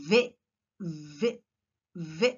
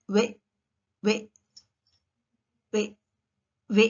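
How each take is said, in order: First: "వే" with top teeth on bottom lip, a buzzing v; V sound. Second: "వే" with rounded lips, like English w; W sound. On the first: Teacher demonstrating V, "వే" said with teeth touching lip. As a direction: bite lightly on the lower lip for "వే". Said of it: "It has to do with the teeth". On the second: Teacher demonstrating W, "వే" said as a rounded w. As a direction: say "వే" from pushed-forward lips, teeth off the lip. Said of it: "W పలికేటప్పుడు it has to do with the shape of the mouth". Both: Shown as a demonstration.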